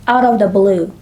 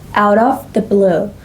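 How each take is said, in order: First: The phrase is said quickly with words run together. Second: The phrase is said slowly and carefully.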